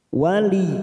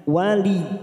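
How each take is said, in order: First: The word stops short on the doubled y sound. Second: The word stops short on the doubled y sound.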